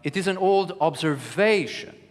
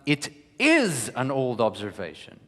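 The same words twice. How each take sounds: First: The stress falls on the word observation. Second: The stress falls on the word old. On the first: It is an observation, not a theory. "I don't mean um, uh, anything else but an observation. It's not a theory" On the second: It is old, not new as someone claimed. "someone else just contested and said, no, this is no observation. This is a new observation"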